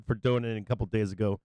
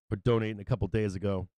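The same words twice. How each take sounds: The two takes are said the same way.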